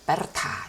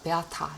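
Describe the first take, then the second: First: The r is pronounced clearly, as spelled. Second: The r is vocalized, sounding like a vowel. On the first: The speaker calls it wrong. "실제 발음은 그렇게 하진 않거든요. 베르타 이러진 않거든요" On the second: The speaker calls it right. "베아타 이렇게 하긴 하는데"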